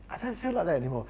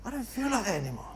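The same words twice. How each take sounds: First: Said in the usual way. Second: Soft high aside. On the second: Shown as a demonstration. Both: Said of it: "on Monday, you're feeling like that".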